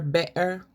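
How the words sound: The middle t becomes a glottal stop.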